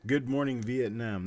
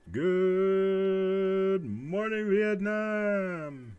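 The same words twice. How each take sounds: First: Said in the usual way. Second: High, very slow drawn-out DJ call; radio DJ shout. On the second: Retold or imitated. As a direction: stretch it out like Robin Williams on air. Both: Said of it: "that's what I'm thinking of".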